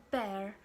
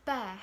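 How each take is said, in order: First: American-style bear, R kept. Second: British-style bear ending on an open vowel; British pronunciation. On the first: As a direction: bear with the final R pronounced. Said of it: "they treat the R sound very differently". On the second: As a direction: bear with the final R dropped. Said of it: "British say bear". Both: Shown as a demonstration.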